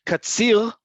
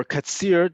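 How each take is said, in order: First: Katzil ending in a throaty uvular Israeli R; guttural Resh. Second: Katzir ending in an English R; American-style Resh. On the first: Teacher showing ways to say Resh, guttural R in Katzil. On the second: Teacher showing ways to say Resh, English R in Katzir. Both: Shown as a demonstration. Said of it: "depending on how you say it".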